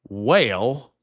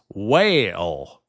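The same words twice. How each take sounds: First: It is said in a Southern drawl, two syllables. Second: It is said in a Southern drawl, two syllables.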